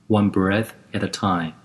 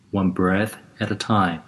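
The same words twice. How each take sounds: The two takes are said the same way.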